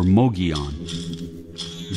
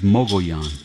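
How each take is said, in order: First: The name sounds like Mogion, with an oh vowel. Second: The name is said as Mogollon. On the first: The speaker calls it wrong. "pronounce it either Mugion or Mogion. That is wrong also" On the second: The speaker calls it right. "Its true Apache pronunciation is Mogollon"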